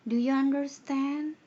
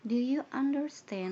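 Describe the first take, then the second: First: A high, loud check-in to the class; loud teacher question. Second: Teacher question. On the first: Teacher demonstrates checking understanding, loudly. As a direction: ask it loud and high, slow. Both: Shown as a demonstration. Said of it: "pasti nanyanya".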